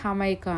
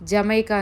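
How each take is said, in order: First: The word begins with an H sound. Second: The word begins with a J sound. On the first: This is how people here say it. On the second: This is how it is written. "అక్కడ స్పెల్లింగ్ రాసే దగ్గర చూడండి మీకు జమైకా అని ఉంటుంది"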